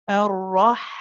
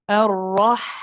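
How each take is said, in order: Both takes have the same delivery.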